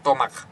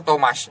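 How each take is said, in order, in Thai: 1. 'ch' ออกเสียงเป็นเสียง k 2. 'ch' ออกเสียงเป็นเสียง ch (1) "คอควายนะน้อง" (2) "ไม่ใช่"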